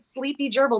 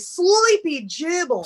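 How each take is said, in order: First: It is said in her ordinary American accent. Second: It is said in an Australian accent.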